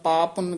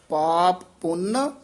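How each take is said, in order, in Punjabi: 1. ਦੋਵੇਂ ਸ਼ਬਦ ਇਕੱਠੇ ਜੁੜ ਜਾਂਦੇ ਹਨ, ਇੱਕ ਪੱਪਾ ਛੱਡ ਜਾਂਦਾ ਹੈ। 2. ਦੋਵੇਂ ਪੱਪੇ ਸਾਫ਼ ਅਤੇ ਵੱਖੋ-ਵੱਖ ਬੋਲੇ ਜਾਂਦੇ ਹਨ। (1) "ਕੋਈ ਇਕੱਠੇ ਹੀ ਕਹਿ ਦਿੰਦੇ ਆ, ਜਿਹਦੇ ਨਾਲ ਇੱਕ ਪੱਪਾ ਰਹਿ ਜਾਂਦਾ ਹੈ" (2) "ਦੋਵੇਂ ਪੱਪੇ ਸ਼ੁੱਧ ਬੋਲਨੇ"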